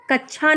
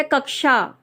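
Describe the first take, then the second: First: कक्षा mispronounced as 'kachchha'; wrong pronunciation. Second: कक्षा said as 'kak-sha'; a clear k then 'sha' in कक्षा; correct pronunciation. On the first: Teacher showing learners what not to say, mispronunciation demo. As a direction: put a 'chchha' in कक्षा, as the mistake. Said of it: "नहीं है ये". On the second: Teacher correcting the word for learners, careful correct pronunciation. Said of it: "ये है कक्षा". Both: Shown as a demonstration.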